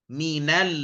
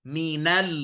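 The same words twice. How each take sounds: The two takes are said the same way.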